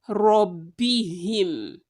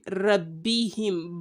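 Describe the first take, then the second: First: The first 'r' sound is heavy and thick. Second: The first 'r' sound is light and thin. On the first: The speaker calls it right. "Ra is a thick letter" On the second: The speaker calls it wrong. "we aren't saying"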